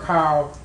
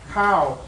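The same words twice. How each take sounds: First: The pitch stays low across the syllable. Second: The pitch falls across the syllable. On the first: "low tone" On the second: "That's a falling tone"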